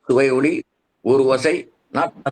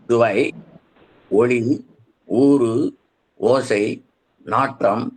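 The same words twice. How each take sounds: First: The words are run together as one joined stretch. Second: Each word is said separately, not run together. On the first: The speaker calls it wrong. "நீங்க அதுல இருக்க மாதிரி திரும்ப தவறா படிச்சிடக்கூடாது" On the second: The speaker calls it right. "இப்படி சொல்லணும்"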